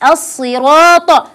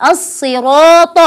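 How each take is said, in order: No difference in how they are said.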